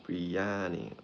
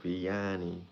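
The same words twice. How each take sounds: The two takes are said the same way.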